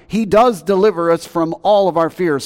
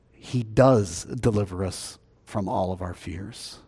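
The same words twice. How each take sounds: First: Loud preaching. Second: Hushed preaching. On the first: Preaching climax. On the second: Closing hushed statement. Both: Acted.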